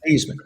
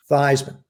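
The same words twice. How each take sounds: First: Thiesman said as THEES-man, long ee sound; original family pronunciation. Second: Theismann said as THYZE-man, rhyming with Heisman; new pronunciation. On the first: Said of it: "it's pronounced Theismann". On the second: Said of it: "No, actually". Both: Retold or imitated.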